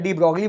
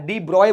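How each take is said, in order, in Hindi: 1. यह नाम स्थानीय देसी रूप में बोला जाता है। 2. यह नाम अपने मूल रूप में बोला जाता है। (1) "मैं डी ब्रॉगली बोलूंगा, मैं देसी आदमी हूं" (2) "डी ब्रॉय बोलते हैं वैसे"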